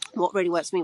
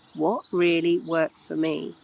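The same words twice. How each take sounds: First: It is asked in a tense, breathless way. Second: It is asked in a calm, measured way.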